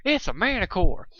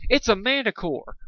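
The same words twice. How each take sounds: First: High alarmed cry in a country mare's voice; a lightly voiced Applejack shouting the alarm; Applejack's voice. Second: Alarmed scream. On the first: Shown as a demonstration. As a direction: redo the warning as Applejack would. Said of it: "I did that in Applejack's voice". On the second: A narrator's reading. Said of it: "one of our heroes screamed".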